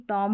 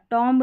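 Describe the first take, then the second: First: टॉम ending on m, no b; silent b. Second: टॉम्ब with the final b wrongly sounded; mispronounced टॉम्ब. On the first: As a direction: close टॉम on the m. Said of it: "टॉम्ब नहीं". (टॉम, बिना ब के) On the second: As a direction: voice the b ending टॉम्ब. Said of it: "टॉम होगा". (टॉम्ब में ब बोलकर ग़लत उच्चारण) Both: Shown as a demonstration.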